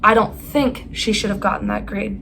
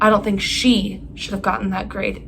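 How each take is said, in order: First: The word "that" carries the emphasis. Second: The word "she" carries the emphasis. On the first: A different grade would have been right. "That's not the grade she should have gotten" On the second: A different person should have gotten it. "It should have been someone else"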